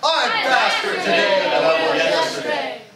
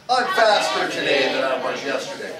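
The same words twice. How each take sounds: First: It is said with lively enthusiasm. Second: It is said in a plain, flat way.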